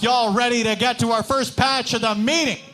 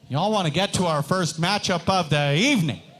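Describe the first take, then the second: First: It is said loudly. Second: It is said fairly quietly.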